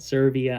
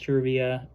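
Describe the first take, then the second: First: The name begins with an 's' sound. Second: The name begins with a 'ch' sound. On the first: The speaker calls it wrong. "I've been pronouncing it Servia" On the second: The speaker calls it right. "I think it's Cervia. That's what I heard over the loudspeakers"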